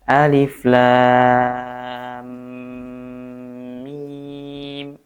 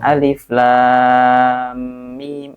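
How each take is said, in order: First: The final m sound is held a little longer. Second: The final m sound is released quickly. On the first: The speaker calls it right. "minimalnya adalah tiga tiga harokat" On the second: The speaker calls it wrong. "kurang lama dikit nih"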